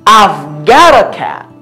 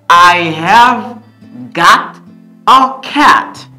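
First: The word have is contracted onto I. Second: The word have is said in full.

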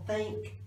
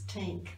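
First: The word starts with a soft TH sound. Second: The word starts with a hard T sound. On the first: "for think" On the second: "they pronounce a hard T"

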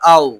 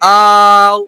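First: The vowel is short and soft, not drawn out. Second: The vowel is stretched out long. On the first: The speaker calls it right. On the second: The speaker calls it wrong. "আও এরকম টান হলো? টান হবে না।"

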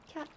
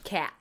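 First: The word is said plainly, without extra emphasis. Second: The word is said with heavy emphasis. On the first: The speaker calls it right. "Just cat" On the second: The speaker calls it wrong. "that's a little too much emphasis on the air"

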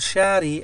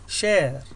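First: The word ends with an added vowel sound. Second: The word ends without an added vowel sound. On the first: The speaker calls it wrong. "لا أقول شاري أو شيري" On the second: The speaker calls it right. "no it's share"

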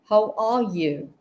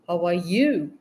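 First: The word 'are' is stressed. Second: The word 'you' is stressed. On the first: "So I just stressed on R" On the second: "I just stressed on you"

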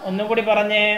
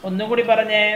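No difference in how they are said.

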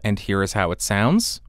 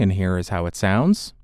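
First: The voice is a few inches off, less bassy. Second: The voice is very close, with boosted bass. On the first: "About 3 inches off of the microphone with it pointed at the corner of my mouth" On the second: "Now I am right on top of the microphone to demonstrate the proximity effect"

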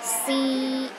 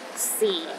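First: The pitch is high and level. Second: The pitch is at the lowest level. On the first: "The first tone is high and steady" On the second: "The fourth tone is the lowest tone"

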